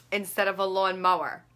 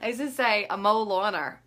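First: Said in the usual way. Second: Mow lawner said as one word, lawn mower swapped; deliberate mix-up mow lawner; swapped word order. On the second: Shown as a demonstration.

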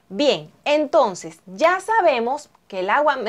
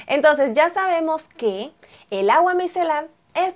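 First: Voice cracking. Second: Said in the usual way. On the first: Real, not acted. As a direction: voice cracks mid-phrase. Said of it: "me salió un gallo". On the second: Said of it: "me salió el gallo".

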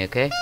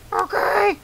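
First: Said in the usual way. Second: Squeaky falsetto character reply, very high; Freddy. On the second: Acted. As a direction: answer in a tiny put-on squeak, straining the throat. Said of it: "I'm gonna keep doing the voice".

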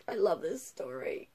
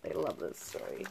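First: Said in the usual way. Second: Low, soft, overcome sigh of a line; swooning murmur. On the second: Real, not acted. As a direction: breathe it out low, overwhelmed with delight.

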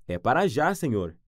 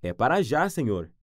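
No difference in how they are said.

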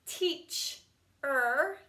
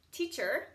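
First: Teach-er split into two parts; Teach-er with a break; sounded out. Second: Said in the usual way. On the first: Shown as a demonstration. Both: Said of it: "Same with this one".

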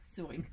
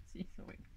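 First: Said in the usual way. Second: Whispered aside to herself; a whispered confession to the viewers. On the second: Real, not acted. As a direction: breathe it out with no voice. Repeats it under her breath.

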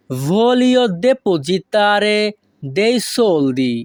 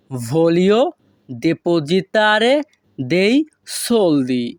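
First: Said in the usual way. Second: Spaced-out model for learners to follow; word by word. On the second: Shown as a demonstration. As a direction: pause between all the words. Teacher repeats phrase word by word. (থেমে থেমে প্রতিটি শব্দ)

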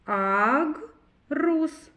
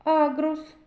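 First: "Агрус" split slowly as Аг, pause, рус; syllable by syllable. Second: Said in the usual way. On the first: Shown as a demonstration. Teacher asking children to count syllables, "Агрус" read in two parts. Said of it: "Скільки складів?". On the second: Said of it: "Зробимо звуковий аналіз слова агрус".

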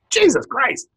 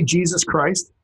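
First: High, startled exclamation; exclaimed oath. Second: Said in the usual way. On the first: Acted. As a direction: blurt it out as a shocked curse. Acting out surprised oath.

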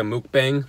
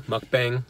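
First: Mukbang said with a long oo, MOOK-bang; MOOK-bang pronunciation. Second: Mukbang with a short uh, MUCK-bang; MUCK-bang pronunciation. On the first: Vlogger naming their lunch video, mukbang pronounced MOOK-bang. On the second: Vlogger correcting the word to themselves, mukbang pronounced MUCK-bang. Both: Real, not acted.

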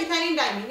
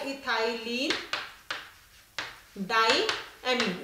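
First: Said in the usual way. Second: The name ethylene diamine drawn out slowly, syllable by syllable; slowly spelling out the name for the class; slow naming. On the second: Shown as a demonstration. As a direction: dictate ethylene diamine slowly so students can write it. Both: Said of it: "इसका जो नाम है".

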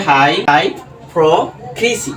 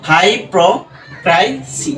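First: হাইপোক্রিসি very slow, "kri" for the third syllable; slow teacher's model of হাইপোক্রিসি; sounded out slowly. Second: হাইপোক্রিসি very slow, syllables apart, "krai" for the third; slow teacher's breakdown of হাইপোক্রিসি; sounded out slowly. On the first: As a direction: stretch হাইপোক্রিসি into hai, pro, krisi. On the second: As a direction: stretch হাইপোক্রিসি into hai, pro, krai, si. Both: Shown as a demonstration. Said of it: "তাহলে এটা কি হবে".

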